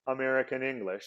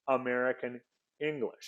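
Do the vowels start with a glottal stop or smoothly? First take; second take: smoothly; glottal stop. First: The vowels start smoothly without a glottal stop. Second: Each word starts with a glottal stop. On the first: "I didn't say American English" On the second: "I put a glottal stop at the beginning of both of those words"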